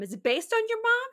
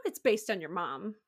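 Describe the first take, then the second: First: Surprised question. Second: Said in the usual way. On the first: Real, not acted. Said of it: "it's not based on your mom".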